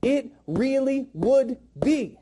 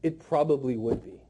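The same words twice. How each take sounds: First: Slow, weighted IT REALLY WOULD BE, each word separate; said with conviction. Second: Lower, offhand "it probably would be"; weak, unconvinced. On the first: Trainer modelling a sales line, slow and convinced. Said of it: "you gotta say it like that". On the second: Trainer mimicking trainees' weak line, low and unconvinced. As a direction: toss it off with no conviction. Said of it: "I'm sick of hearing this". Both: Shown as a demonstration.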